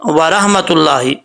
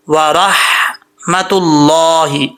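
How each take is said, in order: First: Quicker व रहमतुल्लाहि with a loose, ordinary ह; mistaken recitation. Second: Slow व रहमतुल्लाहि with a full heavy र and held ह; correct recitation. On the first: Retold or imitated. Teacher shows learners a common mistake, mispronounced recitation. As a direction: say व रहमतुल्लाहि carelessly, without drawing it out. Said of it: "हा को हा पढ़ जाते हैं". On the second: Shown as a demonstration. Teacher shows how to read it, careful tajweed. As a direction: draw out व रहमतुल्लाहि syllable by syllable. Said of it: "मोटा पढ़ा जाएगा".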